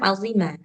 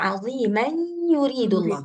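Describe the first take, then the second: First: The word ends and stops without linking onward. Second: The word's nasal ending blends into the next word. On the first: The reader pauses at the end of the verse. "Kita mau berhenti di sini. Jadi, bacanya azimah" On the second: The reader continues without stopping. "Bacanya jadi aziman yuridullah. Kalau kita mau wasal, mau lanjut"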